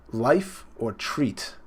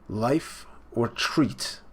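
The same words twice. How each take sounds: First: Very slow, drawn-out life or treat; slow menacing question. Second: Quieter, very slow life or treat; softer slow repeat. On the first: Big Mom threatening her son, a slow drawn-out question. Reading Big Mom's line. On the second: Viewer repeating Big Mom's threat, a softer slow echo. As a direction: murmur life or treat back slowly. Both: Retold or imitated.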